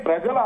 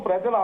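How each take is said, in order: Both takes have the same delivery.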